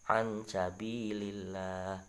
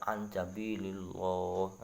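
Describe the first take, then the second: First: The L in Allah is light and thin. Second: The L in Allah is heavy and dark. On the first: The speaker calls it right. "dibaca tipis ya" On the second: The speaker calls it wrong. "lagi mantep dibaca lo, nah itu malah keliru"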